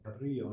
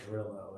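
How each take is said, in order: First: The name is said with a Spanish pronunciation. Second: The name is said with an Anglo pronunciation. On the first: The speaker calls it right. "pronounce all the Spanish street names correctly" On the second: The speaker calls it wrong. "We don't say Carrillo"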